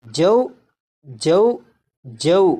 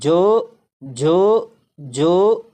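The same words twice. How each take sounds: First: جو with the clear pure vowel; maruf right way. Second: جو with a dull mid vowel, drawn out; majhul wrong way. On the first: Teacher showing students the correct maruf جو. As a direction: say جو with a clean open vowel. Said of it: "بلکہ اسے پڑھیں گے". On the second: Teacher showing students the wrong majhul جو. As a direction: round جو toward jo rather than the clear vowel. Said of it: "اگر کسی نے اس طرح پڑھا ... تو یہ مجہول طریقہ ہے". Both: Shown as a demonstration.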